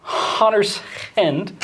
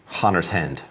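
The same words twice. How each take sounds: First: Hunter's Hand slow, higher, breathy H's; breathy Hot Rod H. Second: Hunter's Hand said plainly; Hunter's Hand, normal H. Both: Shown as a demonstration. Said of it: "They pronounced all the H's with the".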